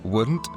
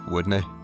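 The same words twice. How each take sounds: First: The word ends with an 'nt' sound. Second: The word ends with an 'nee' sound.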